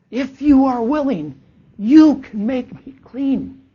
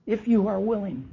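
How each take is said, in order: First: High, loud, slow desperate plea; pleading leper. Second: Said in the usual way. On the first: Acted. Leper kneeling before Jesus, begging to be healed. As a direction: beg for healing with everything you have. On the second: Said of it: "a, a request".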